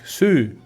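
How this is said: It is said with a drawn-out oo-like vowel. "They say it's more like su"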